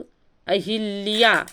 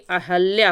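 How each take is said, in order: First: An 'i' vowel is heard after the 'h'. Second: No 'i' vowel is heard after the 'h'. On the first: The speaker calls it wrong. "हम लोग अक्सर अहिल्या ही बोलते हैं" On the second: The speaker calls it right. "जबकि अहल्या होता है"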